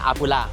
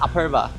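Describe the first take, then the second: First: The name ends with a 'la' sound. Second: The name ends with a 'va' sound. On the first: The speaker calls it wrong. "我那时候看到它那个名字，一直给它念阿布拉" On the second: The speaker calls it right. "可是人家是阿Perva"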